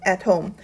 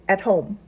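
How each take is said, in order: The two takes are said the same way.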